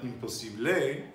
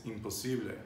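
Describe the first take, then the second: First: "imposible" with the stress wrongly on the final "ble"; wrong final-syllable stress. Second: Said in the usual way. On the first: Shown as a demonstration. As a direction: lift and punch the last syllable of "imposible". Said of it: "It's not imposible". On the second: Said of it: "it's always the penultimate syllable".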